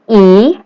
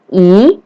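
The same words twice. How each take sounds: Both takes have the same delivery.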